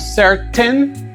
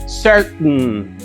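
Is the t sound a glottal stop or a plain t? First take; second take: plain t; glottal stop. First: The t is pronounced as a plain t. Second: The t is swallowed as a glottal stop. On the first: "aquí decimos certain" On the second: "Del otro lado decimos certain"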